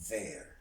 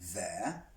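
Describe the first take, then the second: First: It ends with a clearly audible R sound. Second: It ends without an audible R sound. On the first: "in American we will hear the R more" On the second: "we can hear in the British accent say there"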